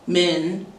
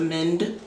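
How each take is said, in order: First: The final d sound is dropped. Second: The final d sound is pronounced. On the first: "There are no consonant pairs" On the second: "instead of"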